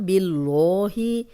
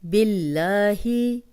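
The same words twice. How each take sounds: First: The L sound is heavy and full. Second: The L sound is thin and light. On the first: The speaker calls it wrong. "हम ऐसे तो नहीं पढ़ेंगे ना" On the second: The speaker calls it right. "अगर ज़ेर है तो बारीक पड़ा जाएगा"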